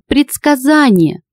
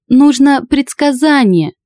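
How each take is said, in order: First: Sung, high, slow wail; sung, howl the word out. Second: Sung, high, slow wail with Нужно stressed; sung, howl it, leaning on Нужно. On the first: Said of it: "с завыванием вторил". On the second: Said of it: "с завыванием вторил ему высокий мужской голос". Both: Acted.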